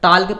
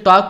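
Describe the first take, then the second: First: The word is said with an l sound. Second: The word is said with no l sound. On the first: The speaker calls it wrong. "अगर वैसे हम किसी टाल के पढ़ते हैं" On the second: The speaker calls it right. "इसे टॉक पढ़ते हैं"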